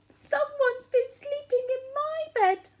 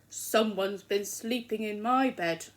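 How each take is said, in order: First: The voice is small, high and squeaky. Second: The voice is loud, deep and growly. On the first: "he said in his little squeaky voice" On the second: "he said in his loud growly voice"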